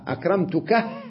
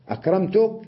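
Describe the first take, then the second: First: The word ends with an added final h sound. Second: The word ends without a final h sound. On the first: "بالهاء" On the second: "بدون الهاء"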